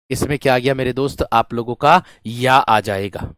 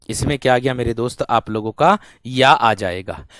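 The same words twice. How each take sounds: The two takes are said the same way.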